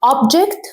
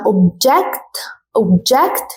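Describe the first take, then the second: First: OBject, first syllable punched; stress on OBject. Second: ObJECT, second syllable punched; stress on obJECT. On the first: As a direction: hit OB in Object. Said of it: "تاني كلمة وهي object". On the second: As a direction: lean on JECT in object. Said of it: "بصوا الفرق في النطق". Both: Shown as a demonstration.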